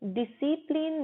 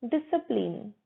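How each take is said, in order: First: 'डिसिप्लिन' as di-SI-plin; wrong pronunciation. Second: 'डिसिप्लिन' as DIS-uh-plin; correct pronunciation. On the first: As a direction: clear 'i' in the second syllable of 'डिसिप्लिन'. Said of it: "डिसिप्लिन नहीं बोलेंगे". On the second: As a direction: schwa after 'dis' in 'डिसिप्लिन'. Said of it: "डिस के बाद अ बोलते हैं". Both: Shown as a demonstration.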